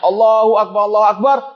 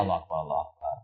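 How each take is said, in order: First: It is said in a high, loud voice. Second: It is said in a low, quiet voice. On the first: This is the call itself. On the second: The caller repeats his own words back.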